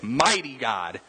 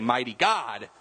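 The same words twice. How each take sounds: First: The stress falls on the word mighty. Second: The stress falls on the word God. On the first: The focus is on his power. The speaker calls it right. "we even emphasize that, and we say" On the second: The focus is on his being God. The speaker calls it wrong. "We don't say"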